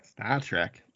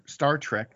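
First: Said in the usual way. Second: Star Trek said in an odd, slipping accent, ending on a fall; weird accent slip. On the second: Real, not acted. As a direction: let Star Trek slide into a strange accent by accident. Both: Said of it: "my accent got all weird like that".

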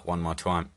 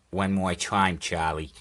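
First: Said in the usual way. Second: Put-on light old-time New York accent; a hint of forties New York; 1940s New York accent. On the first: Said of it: "I don't know why that went into". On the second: Telling Charlie to go once more, 1940s New York accent. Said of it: "some weird nineteen forties New York accent".

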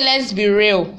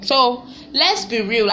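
First: Said in the usual way. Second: Slow, weighty let's be real; a slow, pointed let's be real; slow emphatic. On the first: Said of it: "my sister said". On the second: Real, not acted. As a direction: lean on each word, slowly. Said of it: "slow emphatic repeat".

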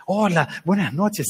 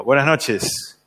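First: Saludo lento y amoroso imitado; muy amorosa, disimulando. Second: Saludo seco imitado, un poco más bajo de tono; saludo frío. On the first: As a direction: imita a una mamá que disimula con cariño. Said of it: "muy amorosa". (saludo cariñoso fingido) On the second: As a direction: saluda con fría distancia, imitando al papá. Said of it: "frío". (saludo frío del papá) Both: Retold or imitated.

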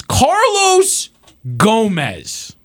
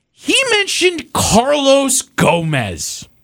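First: Carlos jumps up high, Gomez drops flat; sarcastic, incredulous repeat of Carlos Gomez; mocking disbelief. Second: He mentioned Carlos Gomez drawn out slowly, word by word; slow pointed reveal. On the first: Host repeats name mockingly. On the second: Host stresses absurd name choice. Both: Real, not acted.

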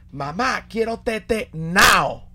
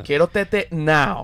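First: Put-on slow, higher whiny toddler begging; whiny baby. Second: Put-on slow whiny toddler repeat; whiny baby. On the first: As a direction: drag it out like a toddler asking for the bottle. (bebé caprichoso pidiendo tetero, lento y agudo) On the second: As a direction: beg for it slowly like a small kid. (bebé pidiendo tetero, arrastrando las palabras) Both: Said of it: "le decía a la mamá".

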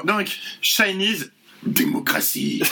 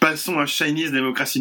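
First: Slow, solemn bad-news voice; grave announcement. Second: Breezy throwaway announcement; offhand, casual. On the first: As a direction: announce it like a terminal diagnosis. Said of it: "sur le même ton que quelqu'un qui annonce une terrible nouvelle". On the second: Retold or imitated. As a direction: toss it off like it's nothing. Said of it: "tu dis ça sur un ton de désinvolte".

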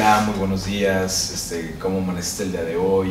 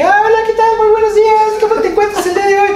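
First: Much lower, much softer husky greeting; a deep just-woke-up good morning. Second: Much higher, louder, fast squeaky greeting; fake high voice. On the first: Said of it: "amaneces con un poco más ronca tu voz". (voz grave y muy suave de recién levantado) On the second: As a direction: drop the act and squeak. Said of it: "Sí puedes fingir un poco la voz". (voz falsa muy aguda y rápida) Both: Shown as a demonstration.

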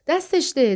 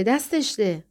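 First: Mildly gleeful cry, pitched high; joyful shout. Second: Mild gleeful repeat of a cry; joyful shout. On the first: Father throwing keys to Jane past Carol, joyful shout. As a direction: call it out with glee, higher. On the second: Father teasing Carol as keys fly to Jane, mild joyful shout. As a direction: call it out gleefully, lightly. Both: A narrator's reading. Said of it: "شادمانه فریاد زد".

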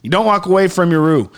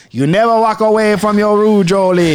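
First: Said in the usual way. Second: Cajun drifting into a hint of Jamaican patois; a sudden lilt of Jamaican patois on the roux advice; slipping into Jamaican patois. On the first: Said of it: "your voice just switched". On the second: Host scolding himself for leaving the roux, in light Jamaican patois. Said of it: "You've had it solid Cajun that whole time".

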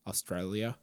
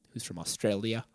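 First: A quick, failed stab at an Australian accent on "Australia."; bad Australian accent. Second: Said in the usual way. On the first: Shown as a demonstration. Host introducing a guest from Australia, attempting a weak Australian accent. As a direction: try "Australia." in an Australian accent, lower and softer, and give up. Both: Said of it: "That, that's a bad accent".

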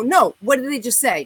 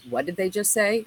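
First: Louder, insistent retold demand. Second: Said in the usual way. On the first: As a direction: press the question, refusing to drop it. Insisting to friend, angrier.

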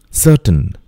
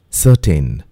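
First: "Certain" said SUH-tun; "Certain" with a weak, short tun ending; careful "Certain", suh-tun; correct pronunciation. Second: "certain" said suh-TEN; "certain" with a full ten at the end; mispronounced "certain", suh-ten; wrong pronunciation. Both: Shown as a demonstration.

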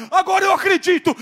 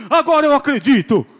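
First: Much higher, louder panicked cry; scared skeptic screams his sudden belief; frantic yell. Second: Loud repeat broken by laughter; preacher laughs while repeating the skeptic's cry; laughing yell. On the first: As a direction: shout it as if converted by terror. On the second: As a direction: shout it again, cracking up. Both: Retold or imitated. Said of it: "começou a gritar".

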